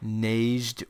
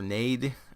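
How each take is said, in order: First: The J sound is pronounced in the word. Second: The J sound is left out of the word. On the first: "if you pronounce the J" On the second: "if that's a silent J"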